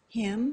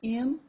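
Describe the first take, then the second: First: The h sound is pronounced at the start. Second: The h sound is dropped at the start.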